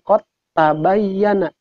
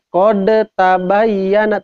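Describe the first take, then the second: First: The d merges directly into the following t. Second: The d is released with a bounce before t. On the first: The speaker calls it right. "tapi langsung diidghamkeun" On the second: The speaker calls it wrong. "ulah dibaca ... yang dikolkolahkeun"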